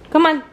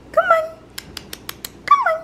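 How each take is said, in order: First: Said in the usual way. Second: Very high squeaky call to coax the dog; very high coaxing call to the puppy. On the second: Real, not acted.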